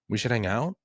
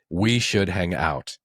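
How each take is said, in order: First: The pitch rises at the end. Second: The pitch falls at the end. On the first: It reads as doubt, sarcasm or a question. The speaker calls it wrong. "Why am I putting an upward inflection at the end?" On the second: It is a firm statement. The speaker calls it right. "You drop it at the end"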